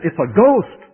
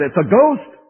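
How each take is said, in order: First: A touch of alarm, higher and louder; hammed-up terror, "ghost" rising; frightened cry. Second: Higher, louder alarmed cry; frightened cry. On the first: Disciples in the boat seeing Jesus, mock frightened cry. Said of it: "And so they said". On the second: Retold or imitated. Disciples spotting a figure on the water, mock alarmed cry. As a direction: repeat the panicked "ghost", rising. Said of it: "precisely what they said".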